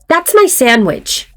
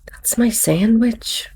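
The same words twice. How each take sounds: First: It is said in a forceful, demanding tone. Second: It is said in a gentle, hinting tone. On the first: The speaker insists on getting the sandwich back. "I was demanding it" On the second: The speaker indirectly suggests the sandwich is theirs. "and I was hinting"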